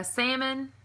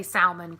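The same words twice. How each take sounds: First: "salmon" said "sammon", no L; silent L. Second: "salmon" with the L sounded, "sal-mon"; L pronounced. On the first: Shown as a demonstration. Vlogger reading the word list, sammon. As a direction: leave the L out of salmon. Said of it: "some people say salmon with an L". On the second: Retold or imitated. Imitating how some people say it, sal-mon. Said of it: "and the L is silent".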